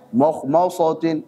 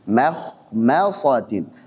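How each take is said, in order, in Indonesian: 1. Setiap suku kata dibuat tebal. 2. Suku kata tipis dan tebal bergantian. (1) "tebal semua" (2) "ma tipis, kha tebal, ma lagi tipis, sa tebal"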